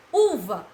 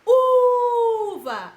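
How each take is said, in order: First: Said in the usual way. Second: Uva with U held long, high and loud; stress on U. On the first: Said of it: "A tia demorou mais em qual?". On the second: Shown as a demonstration. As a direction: stretch the first syllable U in Uva. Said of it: "No u".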